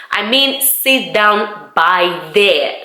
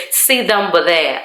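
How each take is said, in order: First: Very slow, "by there" with a full, open BY; clarified "by there". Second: "but there" reduced to a quick "buh-there"; Welsh "but there". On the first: Clarifying for a confused visitor, "by there" slowly with a full BY. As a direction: spell out "by there" slowly, each word separate. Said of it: "you didn't say by there". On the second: Receptionist directing her to a seat, "but there" said as reduced "buh-there". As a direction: run "but there" together with BY weakened to "buh". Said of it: "you said but there". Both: Retold or imitated.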